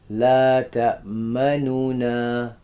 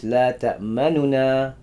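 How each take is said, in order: First: La ta'manuna with all three noons given full, even length; full speed. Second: La ta'manuna with the second nun clipped very short; quick second noon. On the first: Teacher contrasts full-speed noons in La ta'manuna. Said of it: "if it was full speed". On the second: Teacher shows the quick second noon in La ta'manuna. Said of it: "The second one's really quick". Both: Shown as a demonstration.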